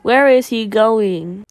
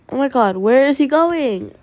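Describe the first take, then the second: First: Slow, loud Where is he going; drawn-out question. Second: High, loud, quick oh my god; startled exclaim. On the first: Gamer repeating the question to viewers, slow and loud. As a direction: stretch out each word of Where is he going. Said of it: "Oh, sorry". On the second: Gamer yelling at a runaway character, loud. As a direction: blurt it in shock. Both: Real, not acted.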